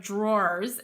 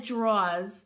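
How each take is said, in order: First: "drawers" said carefully with the r sound in the middle; standard drawers. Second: "draws" said with no r sound, like the word draws; her way of saying draws. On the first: Host contrasting the proper word "drawers". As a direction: give "drawers" its full r-colored middle. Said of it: "instead of drawers". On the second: Host demonstrating her Connecticut "draws". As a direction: say "draws" the way she grew up saying it. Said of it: "I have said draws instead of drawers". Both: Shown as a demonstration.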